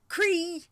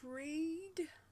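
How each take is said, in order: First: The name ends on a vowel, no d. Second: The name ends with an audible d sound. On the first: The speaker calls it right. "Silent letters are stealthy" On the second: The speaker calls it wrong. "I get it wrong every single time"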